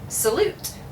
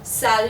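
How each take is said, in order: First: It ends with a pronounced t sound. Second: It ends on a vowel with no t. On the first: The speaker calls it wrong. "in English we would say salute" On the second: The speaker calls it right. "where did the T go?"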